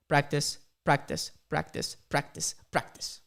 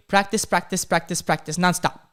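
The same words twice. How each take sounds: First: Slow, spaced-out repeats, lower at the end; slow repetition. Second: Loud, run-together repeats of "practice"; nonstop repetition. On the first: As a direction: let each "practice" drop separately. Repeating the advice word by word. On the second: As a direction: drum "practice" in without a break. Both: Real, not acted.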